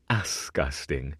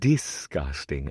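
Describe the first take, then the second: First: The word begins with an 'as' sound. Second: The word begins with a 'dis' sound. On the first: The speaker calls it wrong. "not asgusting" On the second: The speaker calls it right. "the proper pronunciation is disgusting"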